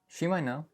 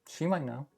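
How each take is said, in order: First: The T in might is dropped. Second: The same.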